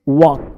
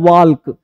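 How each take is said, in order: First: No l sound is heard before the k. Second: An l sound is heard before the k. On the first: The speaker calls it right. "एल जो है वो silent होता है" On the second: The speaker calls it wrong. "वाल्क नहीं"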